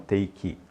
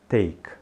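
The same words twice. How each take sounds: First: It ends with an added short 'ee' vowel. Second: It ends abruptly on the K consonant. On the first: The speaker calls it wrong. "e não take" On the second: The speaker calls it right. "você vai dizer take"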